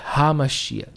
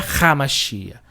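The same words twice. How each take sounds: First: The first sound is a light throat h. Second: The first sound is a harsh R. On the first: The speaker calls it right. "leve na garganta" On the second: The speaker calls it wrong. "Não é"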